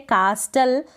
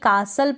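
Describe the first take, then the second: First: A t sound is pronounced after the s. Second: The t sound is silent after the s. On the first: The speaker calls it wrong. "कास्टल पढ़ेंगे नहीं" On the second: The speaker calls it right. "कासल पढ़ेंगे"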